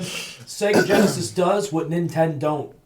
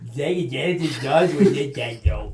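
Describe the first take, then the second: First: It is said in the speaker's own voice. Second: It is said in a put-on character voice.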